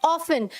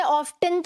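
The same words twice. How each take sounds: First: Often said as OFF-un, no T sound; often pronounced without its T; often with silent T. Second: Often said as OFF-tun, T sounded; often pronounced with an audible T. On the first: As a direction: say often like "awfun", the T left silent. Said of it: "इसमें लिखा है often". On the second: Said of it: "अब इसमें often तो नहीं लिखा". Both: Shown as a demonstration.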